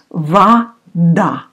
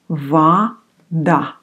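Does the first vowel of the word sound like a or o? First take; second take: a; a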